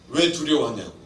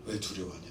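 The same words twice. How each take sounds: First: Said in the usual way. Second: Much softer repeat of the rebuke 왜 두려워하냐고; soft echo. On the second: Retold or imitated. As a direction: let 왜 두려워하냐고 fall away almost under the breath. Repeated rebuke, then echoed softly.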